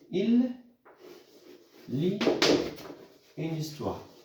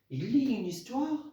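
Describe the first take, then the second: First: The voice falls at the end. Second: The voice rises at the end. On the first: It states a fact. "la phrase déclarative" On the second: It asks a question. "tout en changeant l'intonation"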